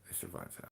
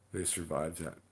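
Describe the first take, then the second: First: Breathy whispered repeat. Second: Said in the usual way. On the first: Shown as a demonstration. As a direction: whisper it back, hushed. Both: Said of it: "repeated as whisper".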